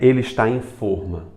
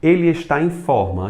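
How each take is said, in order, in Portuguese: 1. A primeira vogal de forma é fechada. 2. A primeira vogal de forma é aberta. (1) "Não tem como fazer isso" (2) "eu não vou pronunciar de forma fechada"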